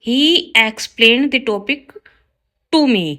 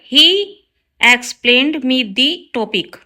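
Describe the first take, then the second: First: Slow, careful read of the corrected sentence; slow teacher dictation. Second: Slow, careful read of the wrong sentence; slow teacher dictation. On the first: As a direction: lay out each word clearly for the class. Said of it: "right होगा". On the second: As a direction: spell it out word by word for the class. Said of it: "wrong है sentence". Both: Shown as a demonstration.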